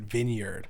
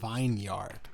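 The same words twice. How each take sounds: First: The first part is a short 'vin' sound. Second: The first part is a long 'vine' sound. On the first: The speaker calls it wrong. "I hear people connect, pronouncing it vineyard" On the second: The speaker calls it right. "but it's it's fucking vineyard"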